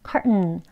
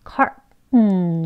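First: The word is said quickly and compactly. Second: The word is said slowly and carefully. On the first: "대화에서 원어민들이 빨리 발음을 하게 되면" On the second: "이렇게 천천히 발음하면 이렇게 되고요"

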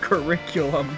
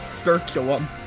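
First: The word is said with four syllables. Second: The word is said with three syllables. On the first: The speaker calls it right. "That word was curriculum" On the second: The speaker calls it wrong. "not circulum"

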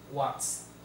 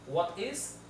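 First: The words are contracted into one syllable. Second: Both words are said in full. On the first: This is the everyday spoken form. "in spoken English" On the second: This is the formal written form. "en inglés escrito, el inglés formal, escrito completamente"

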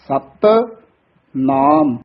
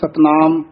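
First: The two parts are said separately, first one tight. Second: The two parts are run together without a break. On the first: The speaker calls it right. "ਥੋੜਾ ਜਿਹਾ ਕਸ ਕੇ ਉਚਾਰਨ ਕਰਨਾ ਹੈ" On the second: The speaker calls it wrong. "ਕਈ ਇਕੱਠਾ ਹੀ ਬੋਲ ਜਾਂਦੇ ਹਨ"

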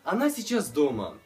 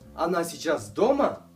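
First: It is said with statement intonation. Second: It is said with question intonation.

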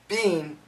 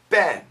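First: The vowel is long, like in 'bean'. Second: The vowel is short, like in 'bin'. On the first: The speaker calls it wrong. "we don't say been" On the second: The speaker calls it right. "we say been"

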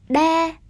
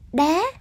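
First: The word is said with a level tone. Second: The word is said with a rising tone.

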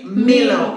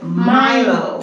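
First: It is said with a Kenyan accent. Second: It is said with a Jamaican accent. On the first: "in Kenya, they say Milo" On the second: "this is the Jamaican pronunciation"

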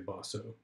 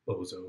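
First: The middle consonant is a hissing s sound. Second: The middle consonant is a buzzing z sound. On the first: This is the proper way to say the name. "I think you're supposed to say Bosso" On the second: This is a playful way to say the name. "but I like to pronounce it Bozo, because that's just more fun"

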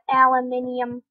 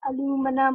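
First: It is said the British way, aluminium. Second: It is said the American way, aluminum.

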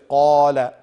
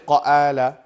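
First: The long vowel is full and dark, like aw. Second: The long vowel is thin and light, like a. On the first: The speaker calls it right. "The alif has automatically become in the sound of aw" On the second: The speaker calls it wrong. "You will not say qa'ala"

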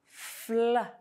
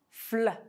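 First: The blend is said slowly. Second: The blend is said fast. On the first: "slowly pronounce the sounds in the two blends with me" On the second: "say these two consonant blends faster"

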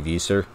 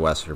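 First: The name is said in a German way. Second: The name is said in an English way. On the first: This is how German speakers say it. "some people say Visser. I think they're German, so they say it that way" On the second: This is the speaker's own way of saying it. "I'd say the Wester"

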